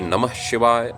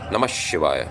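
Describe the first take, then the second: First: The first word ends in an h sound. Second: The first word ends in an sh sound. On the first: This is the usual northern pronunciation. "in the north we usually say" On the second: This follows the Sanskrit sound rule. "the aha sound becomes sh if the the following uh, letter is sh"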